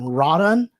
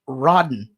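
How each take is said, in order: First: The second syllable keeps a full O vowel. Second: The second syllable has a reduced, dropped vowel. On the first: The speaker calls it wrong. "I've always called him Rodon" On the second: The speaker calls it right. "like they leave the O out"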